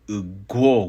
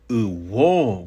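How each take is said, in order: First: The middle consonant is a gw sound. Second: The middle consonant is a plain w sound. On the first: "with a G W pronunciation" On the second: "with a W"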